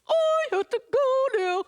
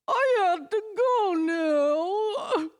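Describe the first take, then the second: First: It sounds happy and cheerful. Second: It sounds sad and dramatic.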